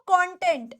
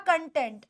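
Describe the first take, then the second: First: कंटेंट as "KON-tent"; second pronunciation. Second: कंटेंट as "kun-TENT"; first pronunciation. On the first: Teacher offers the class one option, कंटेंट said "KON-tent". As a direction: open the first vowel of कंटेंट to "kon". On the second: Teacher offers the other option, कंटेंट said "kun-TENT". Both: Shown as a demonstration. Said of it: "इसकी दो प्रोनंसिएशंस होती हैं".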